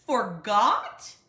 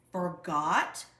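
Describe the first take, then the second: First: Father outraged at his cubs, full roar. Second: A louder, disbelieving Forgot?; first Forgot? said loud, building up; father hearing the notice was forgotten, loud disbelief; indignant repeat. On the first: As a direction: let the second Forgot? explode. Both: A narrator's reading. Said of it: "roared Papa".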